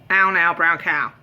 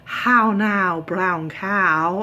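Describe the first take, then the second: First: The first h is dropped in lazy speech. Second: Every word is pronounced crisply and fully. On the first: This is how the speaker normally talks. "That's how I think I sound. I think I have quite a lazy way of talking" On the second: This is how proper diction sounds.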